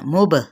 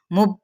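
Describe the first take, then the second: First: मुब with the final b bounced and echoed; मुब ending in a clear little rebound on the b; qalqala bounce. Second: मुब said without the bouncing echo on the b; मुब with a flat, unbounced final b; wrong way. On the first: Teacher to students, showing the right way: bounced मुब. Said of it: "मुब करके पढ़ना है". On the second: Teacher to students, showing the wrong way: flat मुब. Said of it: "इस तरह से नहीं पढ़ना". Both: Shown as a demonstration.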